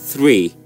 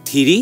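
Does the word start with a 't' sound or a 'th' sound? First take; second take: th sound; t sound. First: It begins with a th sound and no extra vowel. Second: It begins with a t sound and an extra vowel. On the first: The speaker calls it right. "but it's actually three" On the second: The speaker calls it wrong. "We say tiri"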